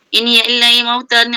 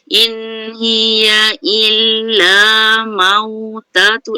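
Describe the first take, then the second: First: The phrase is recited quickly. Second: The phrase is recited slowly. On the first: "Itu kadar paling laju" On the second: "Kadar paling perlahan uh, tak tertil lah"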